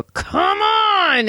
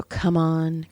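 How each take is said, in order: First: High, drawn-out cry of impatience; retold exasperated holler; exasperated outburst. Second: Said in the usual way. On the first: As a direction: blurt it out high, fed up with waiting. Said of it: "then I pressed unmute". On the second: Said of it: "so I put him on mute".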